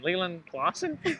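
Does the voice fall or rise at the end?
rise. The voice rises at the end like a question. The speaker is unsure of the name.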